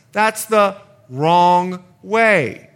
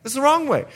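First: Each word slow and louder, "wrong" leaned on; slow stressed warning. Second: "wrong" pitched much higher, quick and insistent; higher repeat. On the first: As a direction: drag out that's the wrong way like a warning. Contrasting right and wrong sides. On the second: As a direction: jump up high on wrong to drive it home. Repeating the warning. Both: Acted.

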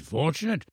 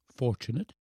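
First: Put-on softly insistent elderly scholar, higher; affirming old professor. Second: Put-on small, soft boy's question; doubting boy. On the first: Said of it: "said the professor". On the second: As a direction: query it softly as a sceptical child. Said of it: "said the boy". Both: A narrator's reading.

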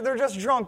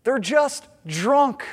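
First: Said in the usual way. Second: Slow, scornful mock of the mockers; they're just drunk, said slow with a sneering rise; mocking dismissal. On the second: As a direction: drag it out dismissively, rising at the end. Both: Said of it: "their response is".

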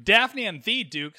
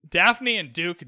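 First: "the" said as a drawn-out "thee"; stress on the. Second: Said in the usual way. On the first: Real, not acted. Podcaster correcting a slip in the names, "the" stressed as "thee". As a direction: correct yourself, leaning slowly on "the" as "thee".

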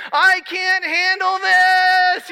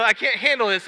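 First: High, slow, loud imitated child's scream; retold scream. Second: Said in the usual way. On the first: Son screaming to dad on the roller coaster, a high loud wail. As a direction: wail it out like a terrified kid on a ride. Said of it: "and he screams". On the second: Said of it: "it was really funny".

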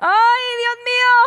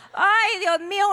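First: Soap-opera melodrama. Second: Higher-pitched exclamation of shock; mock dismay. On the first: Acted. Woman horrified by the prophesying sister, telenovela wail. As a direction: cry out like an overacting telenovela heroine. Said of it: "lo voy a poner así como de novela". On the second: Woman seeing the sister's face, mock fainting dismay. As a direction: react as if about to faint. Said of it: "uno cae muerta y desfallecida".

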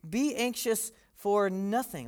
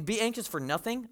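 First: Slow, matter-of-fact statement; calm slow declaration; flatly. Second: Quoting it back with a doubtful rise; as if Paul has lost touch with reality; mildly scoffing question; mock disbelief. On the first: Retold or imitated. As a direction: state it plainly, no hedging. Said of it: "Paul just says pretty flatly". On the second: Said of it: "Paul, you don't get it, man".

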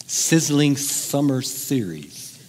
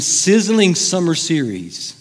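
First: Very slow, word by word; savoured slowly. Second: SIZZLING pushed out, phrase slightly drawn out; promo emphasis. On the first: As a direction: linger on every s in sizzling summer series. Repeats the phrase, savouring each word. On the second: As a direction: punch the word sizzling like a show promo. Relishing a show's promotional phrase. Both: Shown as a demonstration.

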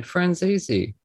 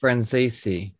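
First: "Franzese" said lazily as fran-ZEE-zee; higher, careless "Franzese" with an ee in the middle; lazy pronunciation. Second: "Franzese" echoed with "zay" in the middle; careful repeat. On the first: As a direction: slur "Franzese" with "zee" in place of "zay". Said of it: "I'm saying it lazily". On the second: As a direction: try "Franzese" as fran-ZAY-see. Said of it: "Zay, it's a A". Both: Shown as a demonstration.

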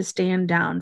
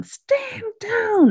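First: Said in the usual way. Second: Mock scream. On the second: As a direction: imitate a pained scream at reduced volume. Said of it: "Billy is screaming for his kin".

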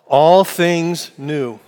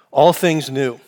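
First: Drawn out slowly, each word weighted; slow unison call. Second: Said in the usual way. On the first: Shown as a demonstration. Pastor leading the congregation in the series title, slow and deliberate. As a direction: lead the room through it slowly. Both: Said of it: "Would you say it with me?".

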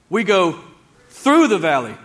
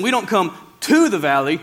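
First: "through" punched loud after a pause; pause, then hit and stretch "through"; stress on THROUGH. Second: "to" punched and stretched, then falling; stress on TO. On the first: Preacher correcting listeners, heavy stress on "through". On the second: Preacher correcting listeners, heavy stress on "to". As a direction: hit "to" hard as the wrong word. Contrasts to with through. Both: Shown as a demonstration.

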